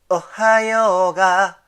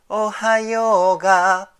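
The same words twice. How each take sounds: First: A sharp catch comes before the first vowel. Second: The first vowel starts softly, with no catch. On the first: "ちっちゃい「つ」をね、入れるだけでだいぶ雰囲気変わってきます" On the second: "じゃなくて"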